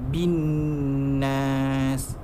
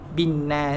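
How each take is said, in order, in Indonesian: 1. Bunyi n sengau dibaca panjang. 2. Bunyi n sengau dibaca pendek. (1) "Kena baca dengung" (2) "Tak nak ... tak boleh"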